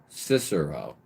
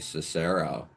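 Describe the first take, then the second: First: The stress is on the first syllable. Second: The stress is on the second syllable. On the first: The speaker calls it right. "with the accent on the first syllable" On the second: The speaker calls it wrong. "not the second"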